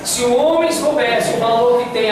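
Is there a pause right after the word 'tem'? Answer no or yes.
no. 'Tem' runs straight on without a pause. The man is the one who would search for the woman. "e fizesse a pausa registrada pela vírgula"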